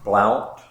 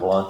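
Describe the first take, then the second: First: The vowel rhymes with 'count'. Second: The vowel rhymes with 'hunt'.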